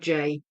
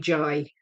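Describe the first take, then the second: First: The letter name does not rhyme with 'eye'. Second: The letter name rhymes with 'eye'. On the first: This is the usual English way. "instead of J" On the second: This is how Scottish people say it. "the Scottish people that I knew would say J"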